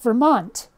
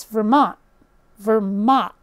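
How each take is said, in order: First: Said in the usual way. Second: "Vermont" with the final T cut to a glottal stop; dropped T. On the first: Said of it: "The letter T does not get pronounced". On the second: Shown as a demonstration. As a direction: say "Vermont" as Ver-mon', no T. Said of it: "there's an apostrophe at the end".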